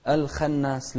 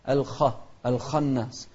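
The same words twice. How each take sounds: First: الخناس with a light, thin خ; خ of الخناس said light, not heavy; wrong way. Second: الخناس with a heavy, full-mouthed خ; خ of الخناس said thick and heavy; correct way. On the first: Teacher showing the wrong thin خ in الخناس. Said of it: "لا، الخناس غلط". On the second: Teacher showing pupils the heavy خ. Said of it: "من أحرف التفخيم". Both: Shown as a demonstration.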